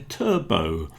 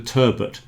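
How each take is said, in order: First: The final T sound is silent. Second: The final T sound is pronounced. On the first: This is how it is said in America. "in America ... they call it a turbo, which sounds very strange to me" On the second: This is how it is said in Britain. "so I pronounce the T on that one"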